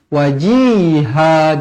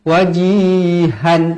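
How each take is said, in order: First: The word ends on a lengthened vowel. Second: The word ends with an n sound. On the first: The speaker calls it right. "Wajiha mad iwa dibaca berhenti dua harukat dan kita buang satu baris" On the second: The speaker calls it wrong. "jangan berhenti wajihan. Ah, tak nak, salah"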